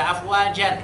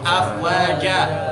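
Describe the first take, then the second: First: The word ends with an n sound. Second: The word ends with a long a vowel. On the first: The speaker calls it wrong. "Ketika di akhir tidak dibaca afwajan" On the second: The speaker calls it right. "tetapi afwaja. Harus dua harokat"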